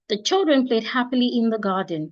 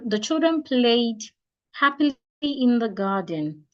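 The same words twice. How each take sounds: First: It is said straight through without any pause. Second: There is a pause after the word played. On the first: "just like one statement" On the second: "the children played, take a pause, happily in the garden, that is wrong"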